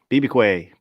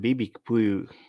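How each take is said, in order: First: It is said with an odd, imitated ending. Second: It is said in the usual everyday way.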